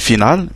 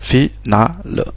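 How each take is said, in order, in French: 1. Le E final est muet. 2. Le E final est prononcé. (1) "on ne dirait pas ici final" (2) "le E final, on le prononce"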